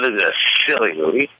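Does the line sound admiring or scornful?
scornful. It is said in a scornful way.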